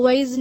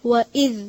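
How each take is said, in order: First: वइज़ with the hamza blurred, no clear catch; wrong hamza. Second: वइज़ with a crisp glottal catch on the hamza; clear hamza. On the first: Teacher shows students the wrong way, hamza blurred. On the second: Teacher shows the correct reading, hamza made crisp. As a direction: make the hamza in वइज़ distinct. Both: Shown as a demonstration. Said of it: "इसको वइज़ नहीं पढ़ना".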